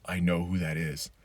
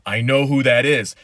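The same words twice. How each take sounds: First: A low, hushed "I know who that is"; hushed recognition. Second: Higher, louder "I know who that is"; excited exclaim. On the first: Retelling the Mandalorian finale to viewers, hushed and awed. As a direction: quietly realise who has arrived. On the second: Retelling the Mandalorian finale to viewers, loud and thrilled. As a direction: burst out as it sinks in. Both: Retold or imitated. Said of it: "And it's like".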